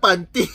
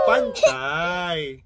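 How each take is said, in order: First: The word ends with an 'ee' sound. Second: The word ends with an 'eye' sound. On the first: The speaker calls it wrong. "Not panty" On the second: The speaker calls it right.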